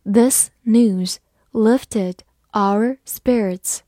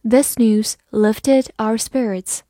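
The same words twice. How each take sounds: First: Very slow, word by word reading. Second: Said in the usual way. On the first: Shown as a demonstration. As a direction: drag out each word for learners. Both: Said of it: "好，慢慢来读".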